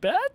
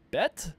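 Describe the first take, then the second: First: It is said with strong emphasis. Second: It is said with mild emphasis.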